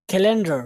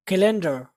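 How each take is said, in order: Both takes have the same delivery.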